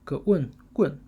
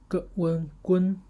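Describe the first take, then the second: First: The syllable is said with the fourth tone. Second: The syllable is said with the first tone. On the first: "fourth tone" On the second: "first tone"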